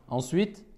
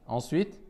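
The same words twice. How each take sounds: No difference in how they are said.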